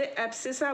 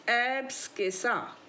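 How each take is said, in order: First: "एब्सिसा" with no k sound after the s; silent C. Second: "एब्सकिसा" with a hard k after the s; C sounded as K. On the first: Teacher showing how some people say it, silent C. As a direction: drop the k, just an s in "एब्सिसा". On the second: Teacher giving students the term to memorise, C sounded as K. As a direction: pronounce the sk cluster in "एब्सकिसा". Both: Shown as a demonstration. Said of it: "कुछ लोग सी नहीं बोलते".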